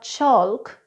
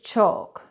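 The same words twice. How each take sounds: First: The L sound is pronounced. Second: The L sound is silent. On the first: The speaker calls it wrong. "It's not chalk" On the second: The speaker calls it right. "it's chalk"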